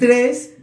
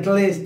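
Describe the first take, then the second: First: The second consonant is an R sound. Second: The second consonant is an L sound. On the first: The speaker calls it right. "Cuando aprendí a decir 3" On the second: The speaker calls it wrong. "como yo de pequeño no pronunciaba la R, siempre decía tles"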